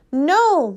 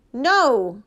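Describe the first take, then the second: First: Louder, higher shout of protest; raised-voice, insistent shout; shouted refusal. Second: Firm refusal just short of a yell; restrained near-yell; almost yelling. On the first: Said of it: "Mama shouted again, louder this time". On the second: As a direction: refuse loudly, holding back from a full yell. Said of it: "Mama was almost yelling at Daddy". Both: A narrator's reading.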